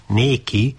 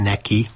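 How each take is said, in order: First: Néki with a long, closed é; archaic néki. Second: Said in the usual way. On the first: Shown as a demonstration. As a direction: stretch the é in néki. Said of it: "nem neki, néki". (régies néki, hosszú zárt é-vel) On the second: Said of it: "nem neki".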